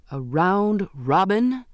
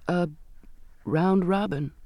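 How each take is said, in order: First: Slow, higher, rising question; astonished exclamation. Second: Halting, pause after the first word; reluctant admission. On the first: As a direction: echo it in drawn-out disbelief. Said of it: "he exclaimed". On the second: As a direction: let the words out reluctantly. Girl haltingly confesses to captain. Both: A narrator's reading.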